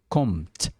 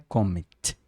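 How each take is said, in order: First: No vowel sound follows the M. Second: A vowel sound follows the M. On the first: The speaker calls it right. "É kommt, kommt. Esse M mudo, né? Sem uma vogal" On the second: The speaker calls it wrong. "não é kommt"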